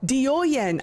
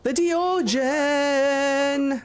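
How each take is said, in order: First: The middle consonant is a Y sound. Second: The middle consonant is a J sound. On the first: The speaker calls it right. "the J isn't a J" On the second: The speaker calls it wrong. "I'm sure it's not pronounced like that"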